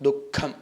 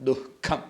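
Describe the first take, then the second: No difference in how they are said.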